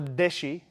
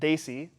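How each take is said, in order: First: The word is said with a Bangladeshi pronunciation. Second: The word is said the standard English way. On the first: "Or deshi, if you're from Bangladesh"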